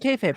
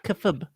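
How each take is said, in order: First: The first vowel is a long 'ay' sound. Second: The first vowel is a short 'uh' sound. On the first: The speaker calls it wrong. "People keep saying kayfabe" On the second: The speaker calls it right. "It's kufub"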